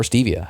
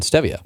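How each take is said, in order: First: "stevia" with a long ee, as in STEE-vee-uh; alternative pronunciation. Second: "stevia" with a short e, as in STEH-vee-uh; short-e pronunciation. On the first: Host offering the other way to say the sweetener, "stevia" as STEE-vee-uh. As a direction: say "stevia" starting like "Steve". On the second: Host offering one way to say the sweetener, "stevia" as STEH-vee-uh. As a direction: say "stevia" starting like "step". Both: Shown as a demonstration. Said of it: "however you wanna pronounce it".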